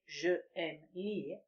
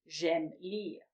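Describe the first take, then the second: First: The vowel of je is fully pronounced. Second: The vowel of je is dropped entirely. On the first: The speaker calls it wrong. "We don't say je aime lire" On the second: The speaker calls it right. "we say j'aime"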